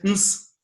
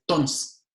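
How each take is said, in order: First: The word is reduced to bare consonants. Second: The word is cut to a single syllable. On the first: "simplemente dice ns" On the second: "Ya es una sola sílaba"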